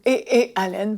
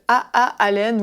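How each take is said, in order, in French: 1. Les initiales se disent avec des noms de lettres anglais. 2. Les initiales se disent avec des noms de lettres français.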